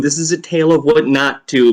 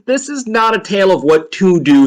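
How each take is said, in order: First: Firm weight on "not" before "to"; emphatic "not", set against the doing; stress on NOT. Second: Firm weight on "to do", pitched up; raised, emphatic "to do"; stress on TO DO. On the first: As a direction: punch "not" to correct the contrast. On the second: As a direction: lean on "what to do" as the thing denied. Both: Acted. Contrasts what to do with not.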